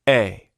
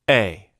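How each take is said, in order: First: The vowel starts abruptly after silence. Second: The vowel starts abruptly after silence.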